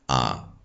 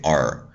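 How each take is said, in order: First: The final r sound is dropped. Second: The final r sound is pronounced.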